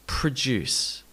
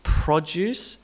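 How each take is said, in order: First: Pruh-DUCE, falling; second-syllable stress. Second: PRO-duce, full O, tune rising; first-syllable stress. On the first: Teacher drills the contrast, stressing DUCE in "produce". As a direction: reduce "pro" in "produce" and land on DUCE. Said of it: "produce versus produce". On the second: Teacher drills the contrast, stressing PRO in "Produce". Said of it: "Noting the produce versus produce". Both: Shown as a demonstration.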